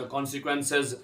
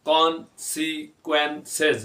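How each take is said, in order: First: Said in the usual way. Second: कॉन्सिक्वेंसेस slowly in four separate beats; drawn-out, broken-up कॉन्सिक्वेंसेस; syllable by syllable. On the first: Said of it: "लेकिन इकट्ठा पढ़ेंगे तो". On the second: Shown as a demonstration. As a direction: pause after each syllable of कॉन्सिक्वेंसेस. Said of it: "चार हिस्सों में तकसीम किया".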